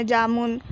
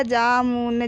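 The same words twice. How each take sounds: First: Said in the usual way. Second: Low jamun broken into जा, मु, न; teacher spelling out jamun in pieces; syllable by syllable. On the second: Shown as a demonstration. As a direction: sound out jamun with a full final न. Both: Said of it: "तो इस प्रकार पढ़ेंगे हम।".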